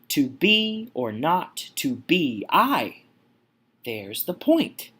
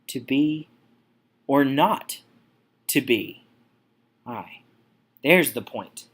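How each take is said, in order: First: Strong stress lands on the word I. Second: Two syllables in a row are left unstressed. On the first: "The emphasis is put on I here. Here's the trochee" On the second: "Moving on to Pyrrhic"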